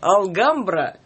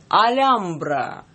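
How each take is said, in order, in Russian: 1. Твёрдое L сопровождается звуком G. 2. Между L и A не слышно никакого согласного. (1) "некоторые читают алгамбра" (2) "Я сейчас попробую произнести это правильно"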